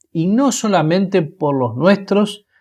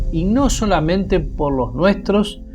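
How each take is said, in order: No difference in how they are said.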